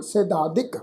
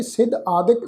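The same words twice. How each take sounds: First: ਸਿਧਾਦਿਕ run together as one word; joined compound. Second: ਸਿਧ ਆਦਿਕ as two distinct words; split compound. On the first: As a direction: glide through ਸਿਧਾਦਿਕ without a break, softer. (ਸਿਧਾਦਿਕ ਨੂੰ ਜੋੜ ਕੇ ਬੋਲੋ) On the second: (ਸਿਧ ਆਦਿਕ ਦੋ ਸ਼ਬਦਾਂ ਵਾਂਗ ਬੋਲੋ) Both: Shown as a demonstration. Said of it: "ਦੋ ਸ਼ਬਦਾਂ ਦਾ ਇਹ ਜੋੜ ਹੈ".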